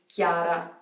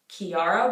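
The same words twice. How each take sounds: First: The I sound is weak and nearly skipped. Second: The I sound is strong and clearly pronounced. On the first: This is the Italian form of the name. "The I is not that strong. We kind of skip over it a little bit" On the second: This is the English form of the name. "where the I is very pronounced"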